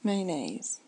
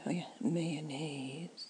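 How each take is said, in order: First: "Mayonnaise" said as "MY-nayz", first syllable like "my"; own mayonnaise. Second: Mayonnaise said slowly as "meh-uh-nez", a put-on reading; drawn-out wrong mayonnaise. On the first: After fumbling, giving viewers her real MY-nayz mayonnaise. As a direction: settle on "Mayonnaise" with a "my" start and a falling end. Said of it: "How do I say it now?". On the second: Showing viewers a take on mayonnaise she disowns, drawn out and slow. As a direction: stretch out "mayonnaise" in a voice that isn't yours. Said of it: "No, I don't say it like that at all".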